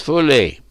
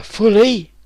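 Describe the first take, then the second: First: FULLY stated firmly as an answer, falling at the end; a decided "fully" that closes the question; confirming. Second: FULLY drawn out slowly and lifted high, as a question; stretched, high-pitched "fully?" of someone checking an order. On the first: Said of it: "Yes," said Cernus". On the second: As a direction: query the word FULLY, slow and high-pitched. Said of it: "asked Capris". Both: Acted.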